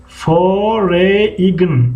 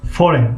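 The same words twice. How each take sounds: First: "فوریگن" very slow, fo-re-ign with the g sounded; read as spelled. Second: "فورین" said as foren, no g sound; silent G. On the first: Teacher reading out how it is written, letter by letter. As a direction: stretch "فوریگن" out, voicing the silent g. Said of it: "فوریگن نوشته گیه". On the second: Teacher giving how it is really read, silent G. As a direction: say "فورین" dropping the g before n. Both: Shown as a demonstration.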